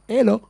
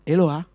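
First: The final 'a' vowel is left off. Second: The final 'a' vowel is clearly pronounced.

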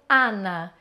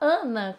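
First: The first vowel is open and not nasalized. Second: The first vowel is closed and nasalized. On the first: This is how Spanish speakers say it. "eles falariam Ana" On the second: This is how Brazilian speakers say it. "como a gente falaria aqui"

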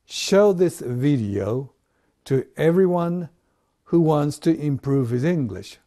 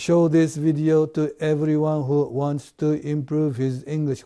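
First: Stressed words are slower, unstressed words are faster. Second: Every word is said at the same even speed.

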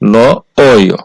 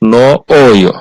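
No difference in how they are said.

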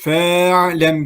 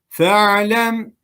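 First: The first vowel is drawn out long. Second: The first vowel is kept short. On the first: The speaker calls it wrong. "Fe'lem gibi okumadık" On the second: The speaker calls it right. "fe harfini çekmeden okuduk"

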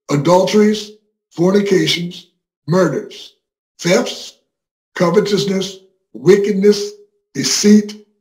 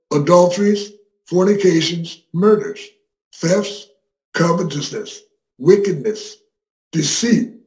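No difference in how they are said.

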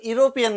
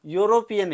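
First: The word begins with a plain vowel sound. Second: The word begins with a y sound. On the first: The speaker calls it wrong. "युरोपियन नाही ना" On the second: The speaker calls it right. "बोलताना युरोपियन आहे"

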